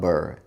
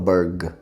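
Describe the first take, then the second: First: The syllable ends with an r sound. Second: The syllable ends with a hard g sound. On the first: The speaker calls it right. "fala Burr" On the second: The speaker calls it wrong. "Não fala Burg"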